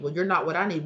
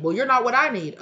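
First: Said in the usual way. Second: "I" punched higher and louder; emphatic retort. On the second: Retold or imitated. One partner retorts to the other, emphatic stress on "I". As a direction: hit "I" hard, raised voice on "not what I need". Escalating voiced argument, repeated harder.

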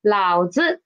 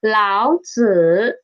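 First: 老子 with the 子 short and toneless; neutral tone. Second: 老子 with a drawn-out third tone on 子; full third tone. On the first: Teacher shows learners the slang word for father, 老子 with neutral-tone 子. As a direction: say 老子 with an unstressed neutral-tone 子. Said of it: "read it as a neutral tone". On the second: Teacher names the ancient Chinese philosopher, 老子 with full third-tone 子. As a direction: give 子 in 老子 its full dipping tone. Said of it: "a third tone word". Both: Shown as a demonstration.

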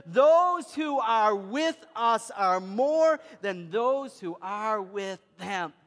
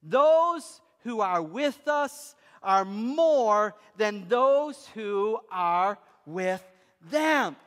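First: Slow, weighty words, each one landed; slow emphatic reading with the congregation. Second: Slow, weighty words, each one landed; slow emphatic reading. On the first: Preacher leading the congregation through the verse, drawn out. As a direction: read it together, drawn out. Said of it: "Can we read that together?". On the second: Preacher reading the verse to his congregation, slow and weighty. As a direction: let every word sink in. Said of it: "can we read that line together". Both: Shown as a demonstration.

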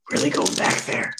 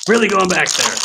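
First: Hushed aside. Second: Higher, fully voiced exclamation; raised-voice repeat. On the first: Pretend. Card opener marvels at an old pack, hushed. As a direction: say it under the breath, almost no voice. Repeats a line in contrasting voice. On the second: Card opener repeats it for viewers, voice raised. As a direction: lift it up and out for emphasis.

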